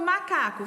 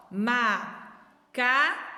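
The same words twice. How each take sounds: First: Said in the usual way. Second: Very slow Macaco split ma-ca-co; syllable by syllable. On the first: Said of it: "Vamos lá, ó. Macaco". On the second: Shown as a demonstration. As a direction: stretch Macaco into three beats. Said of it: "Quantas vezes eu abri minha boca?".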